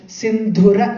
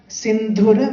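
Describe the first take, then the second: Both takes have the same delivery.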